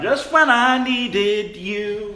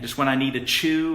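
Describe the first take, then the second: First: The D is stopped before a clear Y sound. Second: The D and Y blend into a J sound. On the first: The speaker calls it right. "it's better to do the stopped D sound" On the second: The speaker calls it wrong. "That's not exactly the way that you want to hear it"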